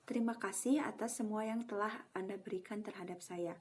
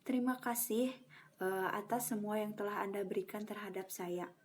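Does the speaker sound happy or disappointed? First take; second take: happy; disappointed. First: It sounds happy and impressed. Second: It sounds regretful and disappointed.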